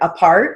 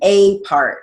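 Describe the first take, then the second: First: The first vowel is a short, reduced sound. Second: The first vowel is a long 'ay' sound. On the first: It is the prefix in one word meaning separated. "short A" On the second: It is the article before a separate noun. "Article A"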